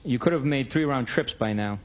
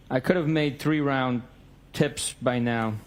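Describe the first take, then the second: First: Said in the usual way. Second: Slow, careful reading with "tips" misread; slow halting misread. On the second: Shown as a demonstration. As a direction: read "three round tips" haltingly and slowly. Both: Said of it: "Excuse me, I apologize".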